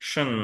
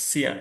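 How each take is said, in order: First: The ending is said like 'shun'. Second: The ending is said like 'see-an'. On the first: The speaker calls it right. "there should be Shen" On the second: The speaker calls it wrong. "We call them Xian"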